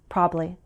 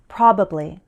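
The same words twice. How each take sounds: First: The word is said with one syllable dropped. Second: The word is said with its full syllables. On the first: "That second variation is very informal" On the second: "I'll say the longer variation first"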